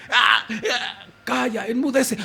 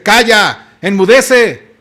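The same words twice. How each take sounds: First: Much softer, gentle command with a small laugh; soft, amused rebuke. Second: Loud, firm command to the sea; commanding rebuke. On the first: Jesus calmly silencing the storm, soft gentle rebuke. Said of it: "yo me lo imagino así". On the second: Jesus standing up to silence the storm, loud command. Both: Acted.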